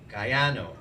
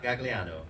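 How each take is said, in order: First: The middle is said without an 'l' sound. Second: The middle is said with an 'l' sound. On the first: This is how the family says the name. The speaker calls it right. "Gaiano, not Gagliano" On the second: This is how others tend to say the name. The speaker calls it wrong. "not Gagliano"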